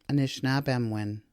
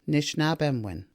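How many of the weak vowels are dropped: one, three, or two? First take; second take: two; three. First: Two weak vowels, o and i, are dropped. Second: All three weak vowels are dropped. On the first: "the O and the I are both not pronounced" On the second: "none of those three vowels are pronounced"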